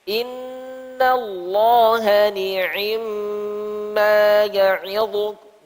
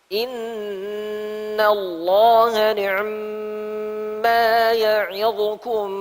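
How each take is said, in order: First: The i-vowel in 'ni'ma' is full and complete. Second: The i-vowel in 'ni'ma' is quick and shortened. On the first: "Itu sempurna kasrahnya seratus persen" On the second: "Ni'm ikhtilas. Berikan dua per tiga kasrah"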